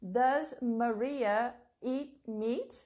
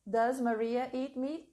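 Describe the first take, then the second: First: Slow dictation. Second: Said in the usual way. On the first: Shown as a demonstration. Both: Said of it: "Please write this question here for me".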